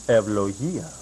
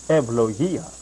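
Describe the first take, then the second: No difference in how they are said.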